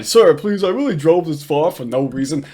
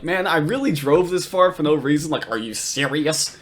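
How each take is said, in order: First: "reason" lifted like a question, though no question is asked. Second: "reason" and "serious" both end on a rise; rising question tune. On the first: Retold or imitated. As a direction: quote the plea with a questioning upward lilt on "reason". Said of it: "it still sounds like he's asking a question". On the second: Shown as a demonstration. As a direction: say "really drove this far" as an incredulous question, rising at the end. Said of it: "not making a statement, but rather asking a question".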